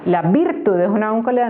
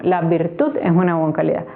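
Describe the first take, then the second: First: VIRTUD stressed on its first syllable, VIR, said quickly; wrong stress on VIRTUD. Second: VIRTUD stressed on its last syllable, TUD; correct stress on VIRTUD. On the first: Teacher testing a wrong accent, stress on first syllable of VIRTUD. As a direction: try VIRTUD as VIRtud, quick test sentence. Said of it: "No, la virtud". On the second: Teacher correcting the test sentence, stress on last syllable of VIRTUD. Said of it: "está en la última sílaba". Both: Shown as a demonstration.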